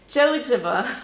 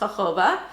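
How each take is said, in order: First: It starts with a J sound. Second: It starts with an H-like sound.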